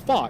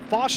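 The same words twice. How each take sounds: First: The name is pronounced the Polish way. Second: The name is pronounced the French way. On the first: "In Polish, it is" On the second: "is how you would say that name in French"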